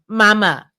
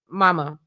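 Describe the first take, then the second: First: Louder, firmer "mama"; acted, exasperated louder "mama"; insistent calling. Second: Said in the usual way. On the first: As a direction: call "mama" with more force. Acted second, more insistent call.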